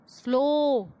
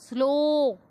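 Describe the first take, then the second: The two takes are said the same way.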